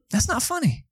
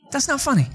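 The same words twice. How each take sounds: First: High mock offended protest; mock indignant. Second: Teasing protest, pitched way up; mock indignant again. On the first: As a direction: play hurt at the laughter. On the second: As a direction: insist playfully that it is not funny.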